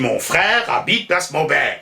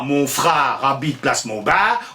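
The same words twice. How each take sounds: First: The 'er' vowels are pronounced like 'air'. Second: The 'er' vowels are pronounced like 'ar'. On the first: This is the way purists consider correct. The speaker calls it right. "on dit" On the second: This is the popular Parisian way of speaking. The speaker calls it wrong. "le peuple de Paris a tendance à prononcer ar au lieu de r"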